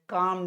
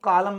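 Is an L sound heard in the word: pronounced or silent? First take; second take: silent; pronounced. First: The L is silent, one syllable only. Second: The L is pronounced as an extra syllable. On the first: The speaker calls it right. "यल silent है" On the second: The speaker calls it wrong. "इसको कालम मत पड़िएगा"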